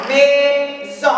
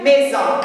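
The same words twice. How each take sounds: First: "maison" split into two drawn-out syllables; découpé en syllabes. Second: Said in the usual way. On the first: Shown as a demonstration. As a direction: say "maison" syllable by syllable, mai, then son. (« maison » prononcé syllabe par syllabe) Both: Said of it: "Et la syllabe mais".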